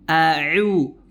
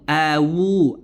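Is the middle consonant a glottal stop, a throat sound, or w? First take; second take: throat sound; w. First: The middle consonant is a pressed throat sound. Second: The middle consonant is a w sound. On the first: The speaker calls it right. "Seharusnya huruf ain" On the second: The speaker calls it wrong. "Atau dia merubah menjadi huruf waw"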